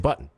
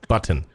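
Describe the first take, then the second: First: The middle T is stopped, not released. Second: The middle T is clearly pronounced. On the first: The speaker calls it right. "You say button" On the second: The speaker calls it wrong. "that's saying it with a T"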